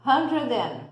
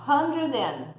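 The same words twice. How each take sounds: First: "Hundred and" linked smoothly, stress on "Hundred"; model pronunciation. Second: "Hundred and" run together, clearly linked; model pronunciation. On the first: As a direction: repeat "Hundred and" for learners to copy. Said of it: "Escuta a pronúncia". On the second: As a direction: show how "Hundred and" joins. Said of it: "Olha a pronúncia". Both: Shown as a demonstration.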